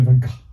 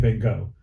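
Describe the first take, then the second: First: The name is said the British way. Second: The name is said the American way. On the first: "They say Van Gogh" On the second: "They don't say Van Gogh"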